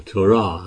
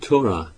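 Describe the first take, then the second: First: Torah with the stress moved to its last syllable; stress on second syllable. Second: Said in the usual way. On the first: Shown as a demonstration. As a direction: say Torah as to-RAH. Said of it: "I think they actually have the emphasis". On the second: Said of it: "have the emphasis, emphasis on the wrong syllable".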